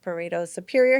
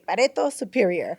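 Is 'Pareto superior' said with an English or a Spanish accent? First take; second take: English; Spanish. First: It is said with a plain English accent. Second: It is said with a strong Spanish accent. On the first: "instead of saying like" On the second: "he would do it with a very Spanish accent"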